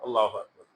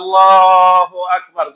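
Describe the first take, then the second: First: The phrase is said short and quickly. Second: The phrase is stretched out long, not loud. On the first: Those behind finish it before the leader does. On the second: The leader of the prayer takes time saying it.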